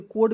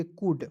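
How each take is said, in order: First: कोड with an "oh" vowel, L silent; alternative misreading. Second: कूड with an "oo" vowel, L silent; correct pronunciation. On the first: Acted. Teacher voicing a student's objection, misread कोड with "oh". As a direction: misread it as कोड, rhyming with road. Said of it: "इसे कोड भी तो पढ़". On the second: Shown as a demonstration. Teacher showing the right reading, silent-L कूड. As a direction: say कूड, no L sound. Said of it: "सीओयूएलडी को पढ़ेंगे कूड".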